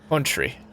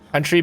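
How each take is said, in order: First: It is said in an exaggerated Mid-Atlantic accent. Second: It is said in a plain American accent.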